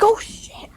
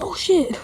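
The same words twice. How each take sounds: First: Breathy whispered oh shit, higher pitched; startled whisper. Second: A mild retold yelp of fright; mock scream. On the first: Retold or imitated. Retelling a cat rubbing his leg unseen, whispered startled curse. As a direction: hiss it under your breath in surprise. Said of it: "I'm like". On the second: Retelling being startled by the cat, mild mock yelp. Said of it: "And I screamed".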